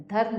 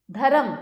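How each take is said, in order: First: Said in the usual way. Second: धर्म split as "dha-ram"; higher, two-syllable धर्म; wrong extra vowel. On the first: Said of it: "धर्म होता है". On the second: Shown as a demonstration. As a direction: add a vowel between r and m in धर्म. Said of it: "धर्म नहीं होता है".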